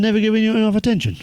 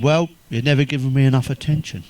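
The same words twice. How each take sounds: First: High, quick indignant question; acted outrage, pitched right up; incredulous echo. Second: Said in the usual way. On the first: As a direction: throw the complaint back in disbelief.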